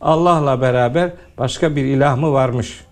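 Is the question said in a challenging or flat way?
flat. The question is read flatly, without rhetorical force. The speaker calls it wrong. "Böyle okuyor, öyle olmaz ki"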